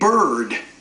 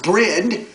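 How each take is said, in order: First: The r sound comes after the vowel. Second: The r sound comes before the vowel. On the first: This is the modern form. "Now we pronounce it bird" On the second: This is the old form. "It was brid"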